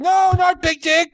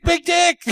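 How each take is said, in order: First: Big Dick said high and insistent; a mimicked Chinese man corrects the teller with Big Dick, high and insistent; mock Chinese accent. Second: Big Dick repeated high as the correction; a mimicked Chinese man repeats Big Dick as the correction; mock Chinese accent. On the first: Big Dick said high and insistent in a mock accent. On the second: Big Dick repeated high in a mock accent. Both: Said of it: "very nice Chinese man".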